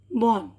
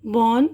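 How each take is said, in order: First: born said with a falling, final tune, a little softer. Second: born said with a rising, questioning tune. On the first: Teacher reading the word list to students, born with a falling tune. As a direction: let born drop down and settle. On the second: Teacher reading the word list to students, born with a rising tune. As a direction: lift the end of born upward. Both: Shown as a demonstration. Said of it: "teacher reading word list aloud".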